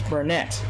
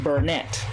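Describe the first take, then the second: The two takes are said the same way.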